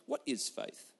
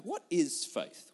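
First: "What is faith?" dropped low and soft, as if pondering; lower, softer repeat. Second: Said in the usual way. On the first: Real, not acted. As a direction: let "What is faith?" sink down quietly. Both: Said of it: "rhetorical question repeated".

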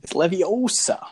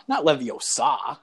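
First: Leviosa with a long, stressed "O" and short final "sa". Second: Leviosa with a drawn-out, stressed "SAH" at the end; stress on final SA. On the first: Correcting someone's spell word, Leviosa stressed on the long O. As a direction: stretch the middle of Leviosa, lifting the pitch. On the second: Mocking the wrong way to say it, Leviosa ending in a long SAH. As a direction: lean hard on the last syllable of Leviosa. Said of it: "a word that ends in". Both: Acted.

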